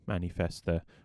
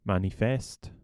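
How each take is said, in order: First: The word ends with a final vowel sound. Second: The word ends without a final vowel sound. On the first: "if it's like German, you pronounce the E" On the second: "If it's like French, you don't"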